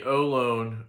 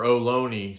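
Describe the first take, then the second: First: "Olone" as oh-LONE, silent final e; mistaken pronunciation. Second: "Ohlone" as oh-LOH-nee, final e sounded; corrected pronunciation. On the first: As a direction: say "Olone" in two syllables, rhyming with "alone". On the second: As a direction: say "Ohlone" in three syllables, ending in "nee". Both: Real, not acted. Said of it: "sorry, I think it's Ohlone".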